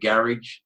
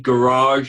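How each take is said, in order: First: It is said in a British way. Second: It is said in an American way.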